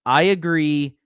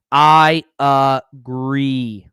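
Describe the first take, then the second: First: Said in the usual way. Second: Drawn-out mock agreement.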